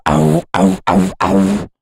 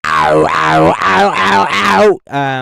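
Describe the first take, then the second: First: Punchy clipped "ow" mimicking tight plucks; clean pluck imitation. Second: Loud crunchy "ow" mimicking overdriven plucks; distorted pluck imitation. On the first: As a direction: imitate crisp plucks that keep their bite. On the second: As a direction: bark out the smeared distorted synth plucks. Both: Shown as a demonstration. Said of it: "in comparison to".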